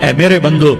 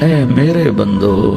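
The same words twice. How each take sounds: First: It is said in a plain, cold tone. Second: It is said in a warm, tender tone. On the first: The speaker calls it wrong. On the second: The speaker calls it right.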